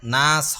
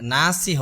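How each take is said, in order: First: The word ends sharply on the s sound. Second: The word ends with a short vowel after s. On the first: The speaker calls it right. "নাস হবে" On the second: The speaker calls it wrong. "নাসই হবে না"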